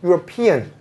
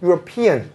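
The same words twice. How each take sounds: First: The stress falls on the 'pe' syllable. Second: The same.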